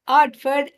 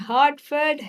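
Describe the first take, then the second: First: The word begins without any h sound. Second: The word begins with a clear h sound. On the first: The speaker calls it wrong. "everything else is Artford" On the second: The speaker calls it right. "the exercise is for her to say"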